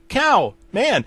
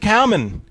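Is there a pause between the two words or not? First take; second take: pause; no pause. First: There is a pause between cow and man. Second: Cow and man run together without pause.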